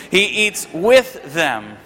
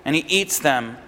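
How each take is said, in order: First: "with" drawn out slowly and set apart; stress on WITH. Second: Said in the usual way. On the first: Real, not acted. Preacher fixing his slip about eating with them, stressed "with". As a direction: slowly correct yourself, leaning hard on "with". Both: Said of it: "that's a weird one to say".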